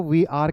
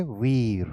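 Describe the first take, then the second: First: "वी आर" said as two separate words; expanded form. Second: "वीर" merged into one falling syllable; contracted form. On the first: Teacher shows the expanded "वी आर", two full words. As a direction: keep "वी" and "आर" apart, both fully sounded. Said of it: "expanded form में तो वी आर कहते हैं". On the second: Teacher shows how the contraction "वीर" is said, contracted form. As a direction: run "वी आर" together as "वीर", lower. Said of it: "contracted form में क्या कहेंगे?". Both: Shown as a demonstration.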